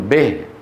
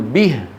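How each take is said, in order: First: The vowel after b is tinged toward a. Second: The vowel after b is a pure i. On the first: The speaker calls it wrong. "كسرة مخلوطة بفتحة" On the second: The speaker calls it right. "بدل ما يقول به"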